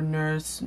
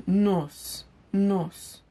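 First: Said in the usual way. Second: Higher-pitched Igbo-accented "nurse", with no R, like "nos"; Nigerian Pidgin accent. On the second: Shown as a demonstration. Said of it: "saying it with the right accent".

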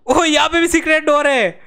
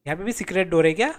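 First: High excited cry of discovery; amazed exclamation. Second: Quick, lower question rising on "क्या"; curious question. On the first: Gamer finds another secret door, amazed exclamation. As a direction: exclaim it in amazement, falling at the end. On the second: Gamer wonders about a secret door, curious question ending up on "क्या". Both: Real, not acted.

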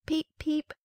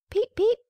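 First: High, squeaky little peep; tiny chick peep. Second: Very high, loud squeaky peep; a big hatchling's shrill first cry; loud duckling peep. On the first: Hatchlings cry out as their eggshells burst, high peeping. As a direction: peep like a newly hatched duckling. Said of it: "it cried". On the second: The ugly duckling bursts out, peeping much higher and louder. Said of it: "said the little one". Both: A narrator's reading.

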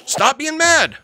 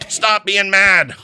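First: High pleading stop being mad; high-pitched plea. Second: Slow, louder, firm Stop; slow firm command. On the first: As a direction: beg them to calm down. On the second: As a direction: lay it down slowly like an order. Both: Real, not acted.

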